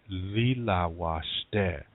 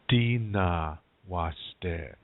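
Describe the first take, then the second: First: The first word is said with l sounds. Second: The first word begins with d, then n. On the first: This is the Lakota dialect form. "In Lakota, you say lila washte" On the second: This is the Nakota dialect form. "In Nakota, you say dina washte"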